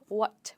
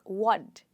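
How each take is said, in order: First: The final consonant is a clear t. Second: The final consonant sounds like a soft d. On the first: The speaker calls it wrong. "what with a T" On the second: The speaker calls it right. "it's more like what instead of"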